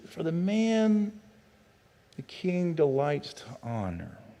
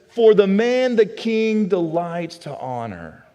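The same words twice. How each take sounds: First: It is said hesitantly, as if thinking. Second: It is said plainly, without hesitation.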